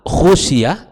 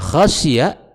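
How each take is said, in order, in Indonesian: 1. Vokal pertama adalah bunyi u yang membulat. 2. Vokal pertama adalah bunyi a yang terbuka. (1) "dibaca dengan uh, dhammah" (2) "dibaca dengan khasyiyah dengan fathah kha"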